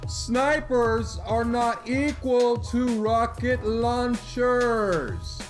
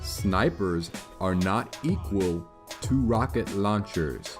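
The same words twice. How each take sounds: First: It is said louder. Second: It is said at normal volume.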